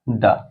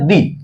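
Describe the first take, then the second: First: The word ends with a short 'uh' vowel. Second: The word ends with a long 'ee' vowel. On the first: The next word begins with a consonant sound. "जब शब्द का उच्चारण व्यंजन से होगा ... तो इसको पढ़ा जाएगा द" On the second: The next word begins with a vowel sound. "जब शब्द का उच्चारण स्वर से होगा तो ... पढ़ा जाएगा दी"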